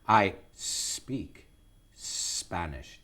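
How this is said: The S of speak is stretched out long. "extend the S, exaggerate it a bit"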